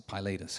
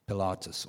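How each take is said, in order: First: Pilatus said as "pie-LAY-tus"; long "eye" then stressed "ay" in Pilatus; anglicized pronunciation. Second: Pilatus said as "pih-LAH-tus"; Latin-style pronunciation. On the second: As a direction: stress an open "ah" in the middle of Pilatus. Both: Shown as a demonstration. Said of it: "however you want to pronounce it".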